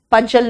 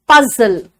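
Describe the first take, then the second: First: पजल with a j, "pujjal"; wrong pronunciation. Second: पजल with a z, "puzzle"; correct pronunciation. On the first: Teacher showing what not to say, mispronounced j. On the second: Teacher modelling puzzle for students, correct z sound. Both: Shown as a demonstration. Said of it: "पजल नहीं बोलना".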